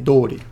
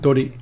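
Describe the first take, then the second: First: The o vowel is long. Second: The o vowel is short. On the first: "the pronunciation is actually dori" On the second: "you'll see it written with one O"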